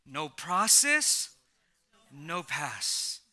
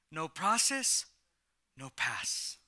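First: "No process" drawn out very slowly, then "no pass" dropped low; slow emphatic repeat. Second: Said in the usual way. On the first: Shown as a demonstration. Pastor repeating his catchphrase to the church, slow and emphatic. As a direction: lean on every word, slowly. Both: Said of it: "Let me say it again".

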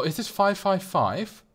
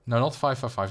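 First: "five five five" asked with a slow rising tune; rising question. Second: Said in the usual way. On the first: Real, not acted. Checking a coaster's stats, a puzzled rising question. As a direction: query "five five five", lifting at the end.

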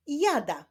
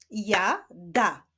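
First: Said in the usual way. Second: "Ja, da" with a clear gap between syllables. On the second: Shown as a demonstration. Teacher helping pupils read, "Ja, da" split apart. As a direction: say "Ja", wait, then "da". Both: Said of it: "łączenia ich w wyrazy".

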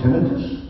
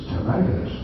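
First: Tinnitus with the stress on TIN, short i's; stress on first syllable. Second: Tinnitus with stressed long i, tih-NYE-tus; American pronunciation. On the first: Speaker puzzling over how to pronounce it, TIN-ih-tus. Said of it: "didn't even know how to pronounce it". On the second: Speaker giving the American version, tih-NYE-tus. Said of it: "American is tinnitus". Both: Shown as a demonstration.

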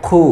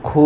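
First: খু with a short, rounded u; short vowel. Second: খু with a long held, rounded oo; stretched vowel. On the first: Teacher showing harakat, short খু. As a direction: cut খু off quickly. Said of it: "টান হবে না". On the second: Teacher showing madd, long খু. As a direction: draw out খু. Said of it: "একালি পরিমাণ টান হবে". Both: Shown as a demonstration.

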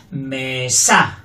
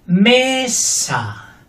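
First: "Mesa" with low ME and punched SA; stress on second syllable. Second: "Mesa" with ME high and long, SA dropping; stress on first syllable. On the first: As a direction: land hard on SA in "Mesa". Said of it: "Fuerte la segunda". ("Mesa" con SA fuerte) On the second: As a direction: punch ME in "Mesa". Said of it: "Fuerte la primera". ("Mesa" con ME fuerte) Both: Shown as a demonstration.

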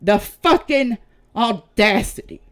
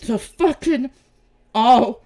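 First: Outraged. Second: Quicker, louder snap on "audacity"; sharper, louder second take of the insult; outraged. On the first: Outraged at accusers. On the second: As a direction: spit out "audacity" hard. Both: Real, not acted.

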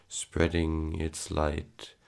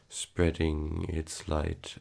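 No difference in how they are said.

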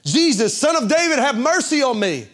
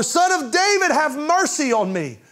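First: High, loud desperate cry for mercy; the blind beggar crying out to Jesus from the roadside, shouting high and loud; blind man's shout. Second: Even higher, loud pleading cry; the blind man shouting louder at Jesus despite the crowd; shouting all the more. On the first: Call out to be heard over the crowd. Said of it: "he began to shout". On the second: Push the cry up higher, begging. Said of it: "He shouted all the more". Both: Retold or imitated.

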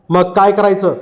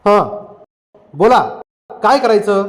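First: Said in the usual way. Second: Impassioned. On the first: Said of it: "मुरा म्हणाला". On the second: A narrator's reading. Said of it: "फकीरा आवेगानं म्हणाला".

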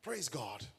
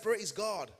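First: Said in the usual way. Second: Loud, high call to the congregation; insistent rallying shout. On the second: Real, not acted. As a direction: shout it out to get a response. Insists congregation answer, third repeat.

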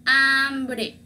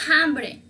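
First: Hambre starting on a drawn-out a, "ambre"; silent H. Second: Hambre with an audible kh-like h, "jambre"; sounded H, wrong. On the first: Teacher gives the correct word, hambre with mute H. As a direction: leave the h off hambre. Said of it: "es la letra muda". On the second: Teacher shows what we don't say, hambre with H. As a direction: breathe a rough h into the start of hambre. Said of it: "no decimos hambre". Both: Shown as a demonstration.

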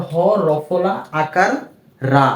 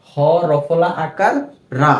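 The two takes are said the same way.

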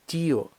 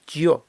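First: «тіо» as two syllables, і stressed; split diphthong. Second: «тьо» in one syllable, stress on o; unsplit diphthong. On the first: Teacher gives what we need, vowels split. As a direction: lean on the і in «тіо», then separate о. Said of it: "а нам треба". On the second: Teacher shows what it would be, diphthong merged. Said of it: "якби розбивки не було, було б". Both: Shown as a demonstration.

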